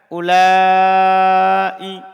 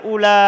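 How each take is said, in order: First: The word ends in a long, drawn-out syllable. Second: The word ends in a short, clipped vowel. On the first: This is the form of the Hijaz dialect. "Jadi tadi itu bahasa mat, bahasanya Hijaz" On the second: This is the form of the Banu Tamim dialect. "dia baca ula bil qasr, dibaca qasr"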